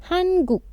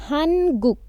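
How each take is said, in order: The two takes are said the same way.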